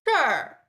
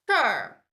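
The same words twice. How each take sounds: Both takes have the same delivery.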